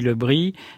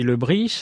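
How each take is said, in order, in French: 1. Le nom se prononce à la manière de Paris. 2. Le nom se prononce à la manière de Rennes. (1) "à Paris, Lebris" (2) "À Rennes, on dit Lebris"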